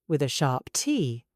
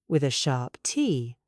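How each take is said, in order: The two takes are said the same way.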